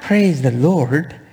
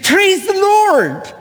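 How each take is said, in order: First: It is said flatly, without excitement. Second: It is said joyfully, like an exclamation.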